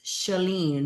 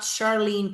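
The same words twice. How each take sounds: First: "Shalene" with no R, drawn out slowly; correct pronunciation. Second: "Charlene" with a clear R; wrong pronunciation. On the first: Streamer correcting Curtis on friend's name, slow R-less pronunciation. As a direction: stretch "Shalene" as sha-LEEEN, dropping the R. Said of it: "No R". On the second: Streamer showing Curtis the wrong name, R pronounced. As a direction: say "Charlene" as shar-LEEN, sounding the R. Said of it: "It's not Charlene, Curtis". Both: Shown as a demonstration.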